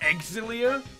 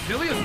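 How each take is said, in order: First: The name starts with an eks sound. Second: The name starts with a plain z sound. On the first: The speaker calls it right. "The correct pronunciation has now been revealed as Exilia" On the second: The speaker calls it wrong. "I'm sorry"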